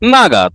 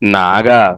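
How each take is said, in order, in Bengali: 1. প্রথম অক্ষরে তীক্ষ্ণ, নিচের দিকে পড়ে যাওয়া স্বর আছে। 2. প্রথম অক্ষরে নিচু, ওঠানামা করা স্বর আছে। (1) "আর যদি ফোর টোনে" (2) "আমি যদি এটাকে থার্ড টোন উচ্চারণ করি"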